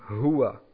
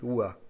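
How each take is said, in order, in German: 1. Das Wort beginnt mit einem deutlichen h-Laut. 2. Das Wort beginnt ohne jeglichen h-Laut. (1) "wir sagen hua" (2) "wir sagen nicht ua"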